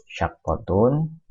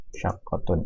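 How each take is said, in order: First: Teacher pronounces "Syaqqatun" slowly, pitched up; drawn-out model word. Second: "Syaqqatun" said again softly, falling; quiet falling echo of "Syaqqatun"; soft repeat. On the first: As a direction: say "Syaqqatun" slowly with a rising end. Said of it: "teacher pronounces the new word". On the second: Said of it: "teacher repeats the word softly". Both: Shown as a demonstration.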